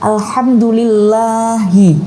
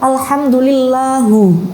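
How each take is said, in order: First: The word ends with an 'i' vowel. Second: The word ends with a 'u' vowel. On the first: The speaker calls it right. "menggunakan kasroh" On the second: The speaker calls it wrong. "tidak sesuai dengan tajwid"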